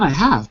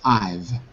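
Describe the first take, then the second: First: Both words are said in full, two syllables. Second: It is contracted into a single syllable. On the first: The speaker calls it wrong. "Not I have" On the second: The speaker calls it right. "don't pronounce the have, just one syllable"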